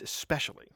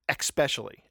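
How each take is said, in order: First: The s comes with no k sound before it. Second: An extra k sound comes before the s. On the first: The speaker calls it right. "It's especially" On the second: The speaker calls it wrong. "It's not espresso, escape, or especially"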